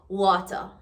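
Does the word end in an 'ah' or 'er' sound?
ah. The word ends with an 'ah' sound. "Remove the E R, add A"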